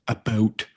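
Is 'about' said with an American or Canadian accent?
Canadian. The word is said with a Canadian vowel. The speaker calls it wrong. "like the Canadians would say"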